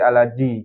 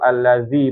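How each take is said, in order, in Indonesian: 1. Konsonan tengahnya bunyi j. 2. Konsonan tengahnya bunyi dh yang digesek. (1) "kadang dibaca baca jim ya. Alaji" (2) "harus gesekkan tuh alazi"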